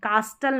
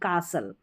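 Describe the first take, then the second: First: The t sound is pronounced in the middle. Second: The t sound is left out in the middle. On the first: The speaker calls it wrong. "नहीं" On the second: The speaker calls it right. "टी silent रहता है"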